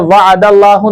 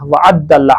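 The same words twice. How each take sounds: First: वअदल्लाहु with a single, undoubled द; the mistaken reading वअदल्लाहु, light single द; misread वअदल्लाहु. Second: वअद्दल्ला with a doubled द; the corrected reading वअद्दल्ला, stressed double द. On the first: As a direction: say वअदल्लाहु without holding the द. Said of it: "इसे वअदल्लाहु नहीं पढ़ना". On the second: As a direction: hold the द in वअद्दल्ला, as in अद्दा. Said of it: "अद्दा से बना हुआ है". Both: Shown as a demonstration.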